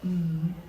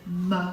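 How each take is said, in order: First: The consonant is held alone with no vowel. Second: The consonant ends with an added uh vowel. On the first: The speaker calls it right. "so much easier to put those sounds together" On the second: The speaker calls it wrong. "if you say m, a, t, it's really hard"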